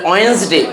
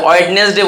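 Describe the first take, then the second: First: "ওয়েডনেসডে" as "wens-day", first D dropped; silent D. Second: "ওয়েডনেসডে" with the first D sounded, "wed-nes-day"; common mispronunciation. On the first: Teacher correcting students on Wednesday, silent D. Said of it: "এটা ওয়েডনেসডে". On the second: Teacher quoting how we usually say Wednesday, D sounded. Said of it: "আমরা কি বলি?". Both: Shown as a demonstration.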